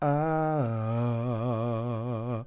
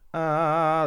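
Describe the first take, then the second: First: The vowel sounds deep and resonant. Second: The vowel sounds bright and forward. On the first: "just a little drop of the larynx brings that sound into that deeper, more resonant place" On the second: "like a present place"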